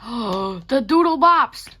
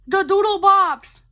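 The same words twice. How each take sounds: First: Slow, loud, thrilled recognition; excited gasp. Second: Much higher and louder, squealed; squealing excitement. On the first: Vlogger spotting her old Doodle Bops drawing, excited and loud. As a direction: drag it out, delighted. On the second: Vlogger squealing about her Doodle Bops drawing, high and loud. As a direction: shriek it with joy. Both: Real, not acted.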